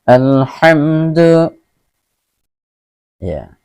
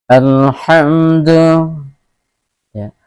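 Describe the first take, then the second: No difference in how they are said.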